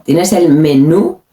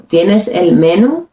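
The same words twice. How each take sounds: First: "menú" as me-NU in a question; "menú" rising on a strong -nú; accent on last syllable. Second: "menú" as MEN-u in a slow question; "menú" mis-stressed on ME, rising at the end; wrong first-syllable stress. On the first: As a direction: ask it with "menú" stressed on the final syllable. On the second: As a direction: ask it with "menú" stressed at the front. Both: Shown as a demonstration.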